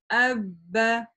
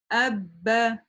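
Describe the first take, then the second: The two takes are said the same way.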